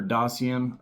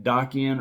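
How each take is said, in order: First: Dacian with a soft S, DAH-see-un; soft S pronunciation. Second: Dacian with a hard K, DAH-kee-un; hard K pronunciation. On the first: Knife fan offering another name reading, Dacian with soft S. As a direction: say Dacian with an S sound in the middle. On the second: Knife fan naming the Benchmade model, Dacian with hard K. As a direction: say Dacian with a K sound in the middle. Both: Shown as a demonstration. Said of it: "however you wanna say it".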